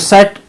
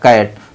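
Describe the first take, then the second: First: The word begins with an s sound. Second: The word begins with a k sound. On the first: The speaker calls it wrong. "सी पढ़ते हैं तो सेट, सेट कहते नहीं" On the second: The speaker calls it right. "इसका उच्चारण हो जाएगा कैट"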